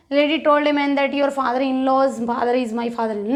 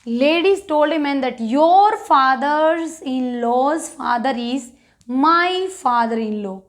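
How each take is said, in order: First: The whole sentence in one go, no breaks; read in one run. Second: Slow, with pauses between the phrases; broken into parts. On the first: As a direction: rush it through without pausing. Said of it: "हमें ऐसे नहीं पढ़ना है". (पूरा वाक्य बिना रुके एक साँस में) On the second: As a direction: break it up, pausing before father is and my father in law. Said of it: "break करके पढ़ना है इसको". (टुकड़ों में रुक-रुक कर धीरे पढ़ना) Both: Shown as a demonstration.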